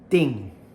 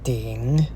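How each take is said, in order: First: The pitch falls sharply from high to low. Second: The pitch dips low, then rises. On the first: "this fourth tone" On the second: "third tone one last time"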